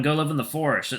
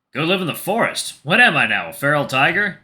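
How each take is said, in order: First: Said in the usual way. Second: Amused incredulity. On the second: Acted. Tiger questions his friend's forest advice, amused incredulity. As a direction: throw the advice back as a question.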